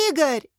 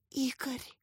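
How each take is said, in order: First: Raised, higher call of a name; calling out loud. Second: Very soft, frightened whisper of a name. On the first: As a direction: cry out the name sharply. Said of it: "закричала Катя в голос". (громко, в голос) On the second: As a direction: barely breathe the name out. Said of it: "прошептала Катя". (испуганным шёпотом) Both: A narrator's reading.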